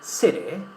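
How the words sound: The middle T sounds soft, close to R. "in American English we would rather say"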